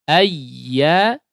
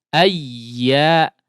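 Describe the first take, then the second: No difference in how they are said.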